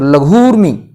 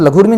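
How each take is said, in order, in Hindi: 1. 'rmi' से पहले का स्वर दीर्घ और खिंचा हुआ है। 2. 'rmi' से पहले का स्वर लघु और जल्दी बोला जाता है। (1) "बड़ी मात्रा का मतलब होता है समय ज्यादा लगना, तो लघूर्मी इस तरह से बोला जाएगा" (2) "इसको हम लघूर्मी नहीं बोलेंगे"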